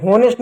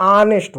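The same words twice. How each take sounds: First: हॉनेस्ट opening with h; H pronounced. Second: ऑनेस्ट starting on the vowel; silent H. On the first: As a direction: sound the H in हॉनेस्ट. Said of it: "नहीं होता". (एच बोलकर "हॉनेस्ट") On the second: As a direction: drop the h, say ऑनेस्ट. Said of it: "एच silent होगा". (एच silent रखकर "ऑनेस्ट") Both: Shown as a demonstration.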